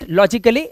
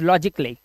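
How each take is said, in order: First: The 'a' before the double l is sounded. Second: The 'a' before the double l is silent. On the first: The speaker calls it wrong. "This is not लॉजिकली" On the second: The speaker calls it right. "ए के बाद अगर double L Y है तो ए हमारा silent होगा"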